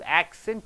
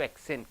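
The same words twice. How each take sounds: First: The stress is on the first syllable. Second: The stress is on the last syllable. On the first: It is used as a noun. "first syllable if you stress" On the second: It is used as a verb. "last syllable if you stress"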